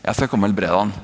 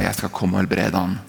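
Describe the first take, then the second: First: It is said in an eager, excited tone. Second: It is said in a tired, reluctant tone. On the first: Helping is something to look forward to. "Dette blir kult" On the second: Helping is a tiresome burden. "Slitsom, nok en syk person som trenger hjelp"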